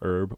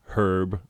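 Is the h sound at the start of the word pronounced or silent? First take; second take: silent; pronounced. First: The word begins with no h sound. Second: The word begins with an audible h sound. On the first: This is how Americans say it. The speaker calls it wrong. "Why do Americans not say the H?" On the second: This is how the British say it. The speaker calls it right. "it's herb"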